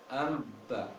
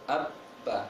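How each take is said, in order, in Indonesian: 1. Bunyi m sengau muncul sebelum b. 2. Kedua bibir menutup rapat tanpa bunyi sengau. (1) "jangan membaca am amba" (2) "Tapi abba. Kuat. Ditahan kuat"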